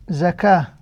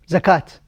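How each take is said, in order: First: The word ends with an h sound. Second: The word ends with a t sound. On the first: The word stands alone at the end. "you pronounce the ta مربوطة as a ha" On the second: Another word follows it. "you pronounce it as zakat, ta"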